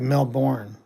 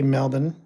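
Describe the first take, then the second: First: It is said with an American pronunciation. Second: It is said with an Australian pronunciation. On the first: The speaker calls it wrong. "Americans they would say Melbourne because they don't know how to pronounce it" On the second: The speaker calls it right. "Australians they say Melbourne"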